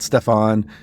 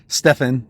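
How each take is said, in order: First: The name is said like 'Steffon'. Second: The name is said like 'Steven'. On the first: The speaker calls it wrong. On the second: The speaker calls it right.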